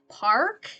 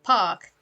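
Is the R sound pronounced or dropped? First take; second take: pronounced; dropped. First: It has an R sound after the vowel. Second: It has a long A with no R sound.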